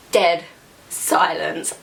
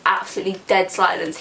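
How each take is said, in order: First: Dead and silence split by pauses; slow dead silence. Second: Said in the usual way. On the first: Real, not acted. She stresses how silent the bus went. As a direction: set each word apart, slowly.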